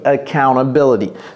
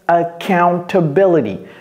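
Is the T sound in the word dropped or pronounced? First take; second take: dropped; pronounced. First: The T sound is dropped completely. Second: The T sound is clearly pronounced.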